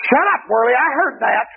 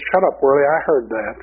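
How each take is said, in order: First: High, sneering demon voice. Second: Said in the usual way. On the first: Retold or imitated. Demon snapping at the praying preacher, high and sneering. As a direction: snap it like a mocking demon. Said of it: "that demon just happened to look over and look at me and said". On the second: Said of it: "he said".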